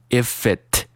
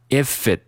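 First: The final t is clearly released. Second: The final t is not released. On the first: The speaker calls it wrong. "我没有读成if it" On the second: The speaker calls it right. "t 呢直接失去爆破了，读成if it"

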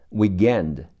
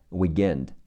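First: The middle consonant sounds like a g. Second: The middle consonant sounds like a g.

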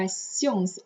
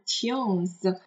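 First: The consonant is pronounced as an s sound. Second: The consonant is pronounced as a t sound. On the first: The speaker calls it right. "它这里发tions" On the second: The speaker calls it wrong. "而不读tions"

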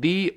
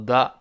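First: The word is said like 'thee'. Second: The word is said like 'thuh'. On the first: The speaker calls it right. "所以前面那个定冠词读成the" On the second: The speaker calls it wrong. "不要读the 啊"

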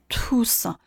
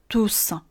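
First: The first consonant is a strongly aspirated t. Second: The first consonant is an unaspirated t. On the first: The speaker calls it wrong. "所以douce 这个词不念tous" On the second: The speaker calls it right. "而念成一个介于送气和浊音之间的一个音"

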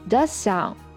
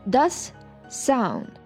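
First: The two words run together without a break. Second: A short pause separates the two words. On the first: The speaker calls it right. "does sound 就可以连在一起" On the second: The speaker calls it wrong. "不需要读成does sound"

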